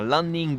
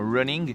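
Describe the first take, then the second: First: It is said with a Japanese accent, extra syllables. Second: It is said with a plain English pronunciation.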